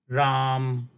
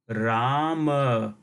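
First: The name ends without its final vowel. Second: The name ends with a full final vowel. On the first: "this word in Hindi will be pronounced Ram" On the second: "in Sanskrit, the same word will be pronounced as Rama"

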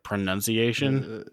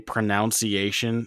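First: The second syllable sounds like 'nun'. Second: The second syllable sounds like 'noun'. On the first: The speaker calls it right. "instead of pronunciation" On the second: The speaker calls it wrong. "when people say pronunciation"

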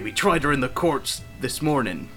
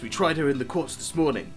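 First: It is said in a put-on Cornish accent. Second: It is said in the speaker's ordinary accent.

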